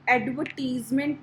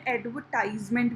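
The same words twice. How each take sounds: First: "एडवर्टीजमेंट" with a long ee in टीज; TEES pronunciation. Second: "एडवर्टाइजमेंट" with an eye sound in टाइज; TIZE pronunciation. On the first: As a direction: say "एडवर्टीजमेंट" with टीज rhyming with "please". ("एडवर्टीजमेंट" में टीज पर लंबी ई की आवाज़) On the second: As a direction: say "एडवर्टाइजमेंट" with टाइज rhyming with "prize". ("एडवर्टाइजमेंट" में टाइज पर आइ की आवाज़) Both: Shown as a demonstration. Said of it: "भी बोलते हैं".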